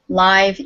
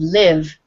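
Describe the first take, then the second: First: The word sounds like the end of 'alive'. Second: The word does not sound like 'alive'. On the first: It describes something performed in person. "live is an adjective" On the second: It means to reside somewhere. "live is a verb"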